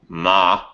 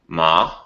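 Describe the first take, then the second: First: The pitch goes up and then down. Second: The pitch stays level and flat. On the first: "there's a up and down" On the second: "there's a flat tone"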